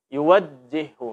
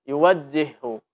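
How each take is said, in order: First: The doubled j is articulated weakly and unclearly. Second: The same.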